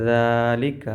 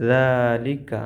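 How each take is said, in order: Both takes have the same delivery.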